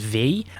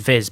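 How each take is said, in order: First: The word is said as 'vee' with no final consonant. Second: The word is said as 'viz' with a final z. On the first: The speaker calls it right. "this is actually pronounced as V" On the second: The speaker calls it wrong. "which you may think is Viz"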